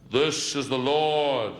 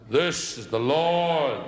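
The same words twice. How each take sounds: First: Very slow, booming mock God voice. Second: Mock voice of God. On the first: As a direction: drag it out like a voice from heaven. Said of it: "one of them shouts down". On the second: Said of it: "And he tries".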